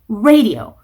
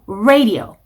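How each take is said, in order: The two takes are said the same way.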